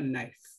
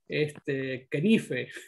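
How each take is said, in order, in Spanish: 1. La palabra empieza con el sonido n, la K es muda. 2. La palabra empieza con el sonido k, la K se pronuncia. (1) "Y se pronuncia knife" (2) "acostumbrado a que hay que pronunciar entonces yo decía ... Así, ¿no? Desastre"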